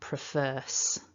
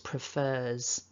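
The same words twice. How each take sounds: First: The word ends with a voiceless s sound. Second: The word ends with a voiced z sound. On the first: The speaker calls it wrong. "and not prefers" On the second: The speaker calls it right. "it's prefers"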